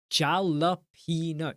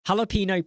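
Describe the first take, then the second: First: "Jalapeno" slowly, with a hard English J as in jam; mispronounced jalapeno. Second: "Jalapeno" with an H sound at the start; corrected jalapeno. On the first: Streamer testing "Jalapeno" with a hard J, mispronounced. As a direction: say "Jalapeno" as JAL-a-PEE-no, drawn out. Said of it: "sometimes I pronounce things in the wrong way". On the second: Streamer correcting "Jalapeno" to start with H, corrected. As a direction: say "Jalapeno" as HAL-a-PEE-no. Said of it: "Sorry, it's jalapeno, isn't it?". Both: Shown as a demonstration.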